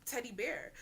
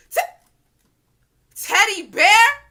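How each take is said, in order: First: Said in the usual way. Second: Slow, high, very loud disbelieving yell; shocked shout. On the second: Retold or imitated. Hearing her own boyfriend's nickname, screaming in shock. Realizes it's her guy.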